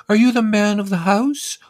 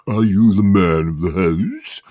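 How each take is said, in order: First: Very high, louder prim lady question; census lady voice. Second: Slow mocking English accent. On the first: Retold or imitated. Census woman asking the narrator, high prim question. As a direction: ask it sweetly, way up high. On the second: Lad mocking the census lady, English accent. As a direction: parrot the question in a put-on English accent. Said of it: "putting on an English accent and repeating the question".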